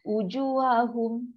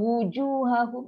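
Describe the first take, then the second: First: The word starts with a plain vowel, no w. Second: The word starts with a rounded w sound. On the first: The speaker calls it wrong. "u tu kita salah jadi hamzah. Salah" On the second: The speaker calls it right. "Wu dengan u, ha, beza"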